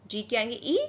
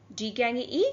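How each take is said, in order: Both takes have the same delivery.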